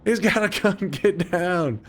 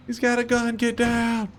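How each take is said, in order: First: High mock-panicked yell; hammed-up high panic, get down; panicky cop. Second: High, urgent yell to take cover; frantic high shout, get down; panicked shout. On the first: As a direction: play the frantic cop, squeaky and scared. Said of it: "He'd be like". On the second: Real, not acted. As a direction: scream the warning in panic. Panicked callout in game.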